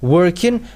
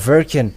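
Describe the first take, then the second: First: The word begins with a W sound. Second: The word begins with a V sound. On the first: "when you say working" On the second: "they say Birkin or Verkin"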